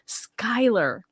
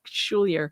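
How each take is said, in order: First: The name is said like 'Skyler'. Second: The name is said like 'Schoolier'. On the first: The speaker calls it right. "Thank you for the pronunciation" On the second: The speaker calls it wrong. "I always say it wrong. I always say Schulier"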